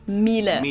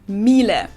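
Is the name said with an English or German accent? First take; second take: German; German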